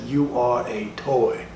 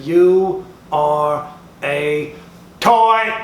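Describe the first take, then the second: First: A hint of a solemn Woody, a touch slow; lightly voiced Woody, slow. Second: Slow booming declaration. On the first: Woody staring the toy in the eye, slow and level. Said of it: "looked that toy right dead in the motherfucking eye and said". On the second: Acted. Woody getting in Buzz's face, slow booming shout. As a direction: lay down the truth, slow and then hammer it. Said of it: "Said it just like that".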